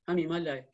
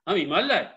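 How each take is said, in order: First: It is said flatly, without feeling. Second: It is said with a forceful, heartfelt jolt.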